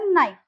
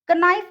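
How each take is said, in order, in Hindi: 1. शब्द सीधे n की आवाज़ से शुरू होता है। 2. n से पहले k की आवाज़ सुनाई देती है। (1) "ये हो जाएगा नाइफ" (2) "कनाइफ नहीं बोलेंगे"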